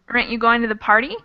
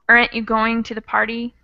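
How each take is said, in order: First: The opening vowel is dropped entirely. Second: The opening vowel is a short sound. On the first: "drop the A but keep the rest of it" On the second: "change it into a sort of shorter sound"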